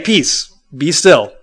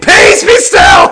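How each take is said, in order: First: The phrase is spoken calmly and quietly. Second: The phrase is shouted loudly. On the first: The speaker calls it right. "Like he just had to say" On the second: The speaker calls it wrong. "I don't think in that he like had to scream it. I don't think he had to go"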